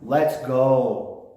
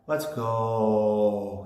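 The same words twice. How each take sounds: First: It is said plainly, without stretching the end. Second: It is said with the end drawn out.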